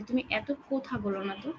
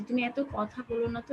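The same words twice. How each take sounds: First: কোথা said with a rounded ও, as kotha; wrong pronunciation. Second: কথা said with open অ, as kɔtha; correct pronunciation. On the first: Teacher to class, showing the wrong rounded ও in কোথা. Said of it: "বলি না কিন্তু আমরা যে". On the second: Teacher to class, showing how কথা is said, with an open অ. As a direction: say কথা with a plain open অ sound. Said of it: "কোথা না বলে কথা বলি". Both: Shown as a demonstration.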